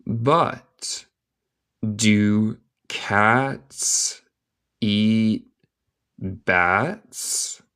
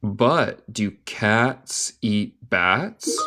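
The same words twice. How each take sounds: First: Very slow question with long gaps; word-by-word dictation. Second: Slow, joined-up question, rising at the end; slow connected question. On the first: Teacher reading a question to learners, word by word. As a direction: separate each word, rising at the end. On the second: Teacher repeating the question for learners, slow and connected. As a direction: ask it slowly in one go. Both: Shown as a demonstration.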